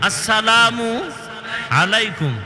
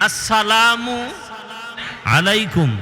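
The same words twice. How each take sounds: The two takes are said the same way.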